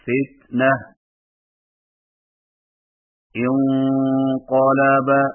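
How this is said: There is a stop after the first word. "وقفاً"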